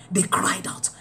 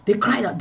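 First: Whispered. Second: Said in the usual way. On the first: Acted. Preacher whispering to the congregation, hushed and unvoiced. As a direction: breathe "They cried out" as a soft unvoiced whisper.

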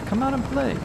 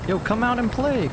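First: Much higher playful singsong; high singsong taunt. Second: Singsong taunt, pitched up; mocking taunt. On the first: Acted. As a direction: lure them out with a high tease. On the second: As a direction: tease them out of hiding. Taunting hiding enemy.

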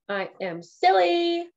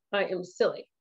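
First: Higher, louder and slowed, stretched out; playful sing-song. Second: Said in the usual way. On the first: Shown as a demonstration. Streamer admitting her silliness, higher, louder, drawn out. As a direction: savour it like a happy confession. Repeats phrase twice differently.

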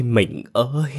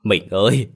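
First: Higher, drawn-out grieving call; high wailing cry. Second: A husband's loud wail calling his dead wife; wailing cry. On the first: Husband's final call to his dead wife, high drawn-out wail. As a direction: let the last call break upward in grief. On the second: Husband wails over his dead wife, a loud grieving cry. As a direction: cry out her name in grief. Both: A narrator's reading. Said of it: "Ông Lập đau đớn gào khóc".

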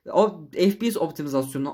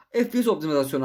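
First: Tripping over "optimizasyonu"; halting, fumbled try at "O F P S optimizasyonu"; stumbling attempt. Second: Said in the usual way. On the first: Real, not acted. Gamer retrying a term he couldn't say, stumbling on "optimizasyonu". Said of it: "konuşamadım". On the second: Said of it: "Yarım saattir bunu demeye çalışıyorum".

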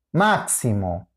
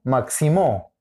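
First: "máximo" stressed as MAK-si-mo, falling low; stress on first syllable. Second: "máximo" wrongly stressed as mak-si-MO; stress on last syllable. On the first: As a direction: settle firmly on the MAK of "máximo". («máximo» con acento en la primera: MÁK-si-mo) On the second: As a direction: punch the final MO of "máximo". («máximo» con acento en la última: mak-si-MÓ) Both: Shown as a demonstration. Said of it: "La ubicación del acento".

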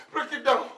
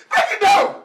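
First: Said in the usual way. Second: High, yelled order; shouted command. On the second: Acted. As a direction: scream it as a furious repeat order. Repeats order in rage.

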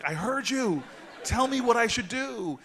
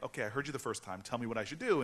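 First: High, loud, exasperated outburst; exasperated mock yell. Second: Retold reply with mild impatience; mildly impatient retort. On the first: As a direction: yell it comically, at the end of your patience. Retold exasperated outburst at the woman. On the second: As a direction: press lightly for the answer. Retold first, milder impatient reply.

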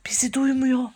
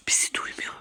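First: Said in the usual way. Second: Soft, voiceless whisper. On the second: Pretend. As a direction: whisper so as not to be heard. Hiding, must not be heard.

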